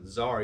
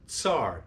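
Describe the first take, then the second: First: The word begins with a plain z sound. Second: The word begins with a ts sound. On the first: The speaker calls it wrong. "You don't pronounce it czar" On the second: The speaker calls it right. "you pronounce it tsar"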